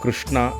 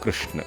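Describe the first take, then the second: First: The word ends with a full final vowel. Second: The final vowel is dropped, ending on a consonant.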